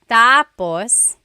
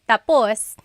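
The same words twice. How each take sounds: First: The stress is on the first syllable. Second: The stress is on the last syllable.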